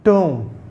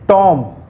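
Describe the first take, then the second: First: The vowel is a long oo sound. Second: The vowel is a short o sound. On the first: The speaker calls it right. "this is tomb" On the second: The speaker calls it wrong. "It's not tomb"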